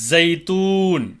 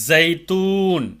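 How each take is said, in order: Both takes have the same delivery.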